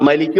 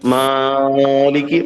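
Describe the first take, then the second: First: The first vowel is said short. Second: The first vowel is stretched out very long. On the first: "മലിക്ക് പറഞ്ഞാലും ആകൂല" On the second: "മാലിക്ക് പറയേണ്ട ആവശ്യമില്ല"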